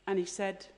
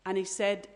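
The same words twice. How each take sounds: The two takes are said the same way.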